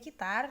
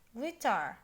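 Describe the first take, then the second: First: It is pronounced the Indonesian way, gitar. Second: It is pronounced the English way, guitar. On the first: This is the Indonesian word. "kalau di Indonesia kita sebutnya gitar" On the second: This is the English word. "di bahasa Inggris kita sebutnya guitar"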